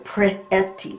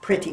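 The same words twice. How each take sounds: First: "Pretty" with a clear eh in the first syllable; short E sound. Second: "pretty" quick, the eh barely heard; said fast. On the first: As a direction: open up the eh in "Pretty", slightly drawn out. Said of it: "Eh. It's kind of like an eh". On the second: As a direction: run "pretty" together in one quick word. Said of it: "We say it fast". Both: Shown as a demonstration.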